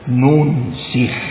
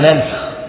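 First: The first vowel is u, the second is i. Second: The first vowel is a, the second is a. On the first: The verse is transferred into the heart. "قال بضم وكسر ننسخ" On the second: The ruling of the verse is cancelled. "الجمهور ما ننسخ"

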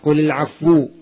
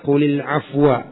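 First: The last word ends with a 'u' vowel. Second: The last word ends with an 'a' vowel. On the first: The word za works as a relative pronoun. "Ada qiraah qulil afwu" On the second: The word za is treated as cancelled. "Kalau dibaca qulil afwa"

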